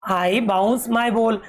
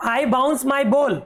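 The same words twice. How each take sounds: First: Even slower, steady word by word; a slower second reading; slow repeat. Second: Very slow, word by word reading; slow, clear teacher reading; slow read-aloud. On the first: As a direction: repeat it slowly so kids follow. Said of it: "teacher repeating line slowly". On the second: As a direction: spell the line out slowly for kids. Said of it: "teacher reading line slowly". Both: Shown as a demonstration.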